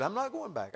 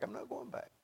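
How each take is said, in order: First: Raised-pitch quoted refusal; retold refusal. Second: Much softer, higher repeat; hushed retold refusal. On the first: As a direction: voice the son's resolve, a little softly. Retold resolve, first take. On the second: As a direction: say it as if to oneself. Retold resolve, repeated under breath.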